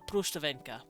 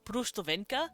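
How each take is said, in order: First: The sounds are squeezed together into one run. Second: Each part of the word is said fully. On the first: "kind of like squish it all in" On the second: "we'd read it out as Brustvenka"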